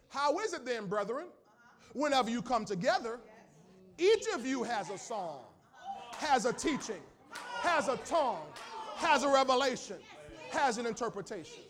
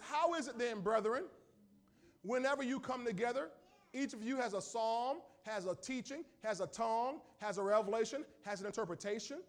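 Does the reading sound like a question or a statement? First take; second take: statement; question. First: It is read as a statement. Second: It is read as one long question.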